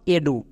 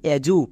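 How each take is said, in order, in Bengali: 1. ব্যঞ্জনটি d ধ্বনি। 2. ব্যঞ্জনটি j ধ্বনি। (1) "not এডু। এডু কিন্তু বলবো না" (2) "এজু, নট এডু"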